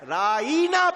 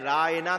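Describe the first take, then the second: First: The middle vowel is drawn out long. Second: The middle vowel is said short. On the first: "जरा खींच कर राइना पढ़ लिया जाए" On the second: "राइना की बजाय"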